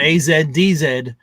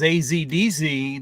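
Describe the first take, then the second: First: The letter Z is said the British way. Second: The letter Z is said the non-British way. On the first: "the U K would really fuck it up. They'd call it" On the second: "if it was A Z D Z"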